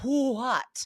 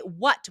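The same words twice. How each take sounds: First: It starts with an audible breathy h. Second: It starts with a plain w, no h. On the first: The speaker calls it wrong. "we don't say" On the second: The speaker calls it right. "we do not say the H"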